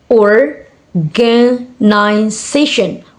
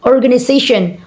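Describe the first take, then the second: First: Organization very slowly, in separate beats; syllable by syllable. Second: Said in the usual way. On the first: Shown as a demonstration. Teacher showing five syllable word, syllable by syllable. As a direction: pause between the syllables of organization. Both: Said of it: "five syllable words".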